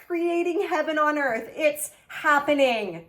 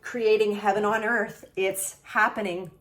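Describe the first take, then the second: First: Excited reread. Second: Said in the usual way. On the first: Real, not acted. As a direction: repeat it thrilled and lifted.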